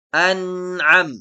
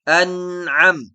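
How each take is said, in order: The two takes are said the same way.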